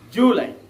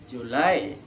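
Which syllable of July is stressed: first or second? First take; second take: first; second. First: The stress is on the first syllable. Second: The stress is on the second syllable. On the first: The speaker calls it wrong. "Don't pronounce it as July" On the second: The speaker calls it right. "placing the accent on the second syllable"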